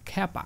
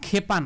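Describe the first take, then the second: First: The first vowel is an open 'a' sound. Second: The first vowel is a plain 'e' sound. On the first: The speaker calls it right. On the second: The speaker calls it wrong. "খেপা না"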